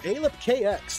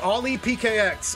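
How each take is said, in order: First: The name begins with the sounds 'a lip'. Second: The name begins with the sounds 'Ollie P'. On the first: The speaker calls it wrong. "I went a lip" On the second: The speaker calls it right. "I think it's Ollie P K X"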